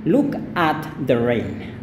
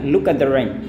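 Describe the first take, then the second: First: The word 'at' is said in full. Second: The word 'at' is shortened and reduced. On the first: "tidak salah juga kalau Anda katakan look at the rain" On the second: "tapi bisa bilang look at the rain"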